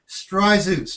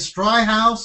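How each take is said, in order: First: The middle consonant is a z sound. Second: The middle consonant is an h sound. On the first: The speaker calls it right. "and it's Stryzeus" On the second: The speaker calls it wrong. "I heard people saying Stryhouse"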